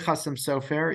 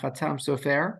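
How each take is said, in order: First: The first word has an S sound in the middle. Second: The first word has a T sound in the middle. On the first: This is how the people themselves said it. "I say Chassam Sofer" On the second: This is how academics say it. "the academics would say Chatam uh, Chatam Sofer"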